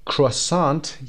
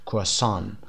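First: کروسانت with the r and final t said; croissant with final t. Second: کروسان without the r sound and no final t; French croissant. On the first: Teacher models the English pronunciation, every letter sounded. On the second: Teacher models the French pronunciation, r and t dropped. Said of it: "ر رو تلفظ نکنیم و ان تی رو هم تلفظ نکنیم". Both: Shown as a demonstration.

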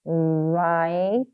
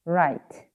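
First: "Write" with a long drawn-out i, separate t; long vowel. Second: Said in the usual way. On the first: Shown as a demonstration. Teacher reminding learners of long sounds, "Write" vowel drawn out. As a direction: stretch the vowel in "Write", low in pitch. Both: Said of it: "길게 소리 나는 것도".

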